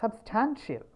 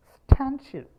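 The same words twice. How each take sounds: First: Said in the usual way. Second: Substantial with stan punched high and loud; stress on stan. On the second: Shown as a demonstration. Teacher marking where Substantial takes its stress. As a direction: hit stan hard in Substantial. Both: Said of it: "അവിടെയാണ് അതിൻ്റെ stress വീഴുന്നത്".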